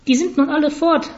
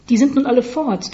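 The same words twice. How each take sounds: First: High-pitched parrot voice; high, croaky talking bird; croaking parrot. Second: Higher voice echoing a parrot; lightly imitated parrot line; quoting the parrot. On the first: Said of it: "krächzte ein Papagei". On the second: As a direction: repeat it as a mild parrot quote. Boy quotes the parrot's line. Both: A narrator's reading.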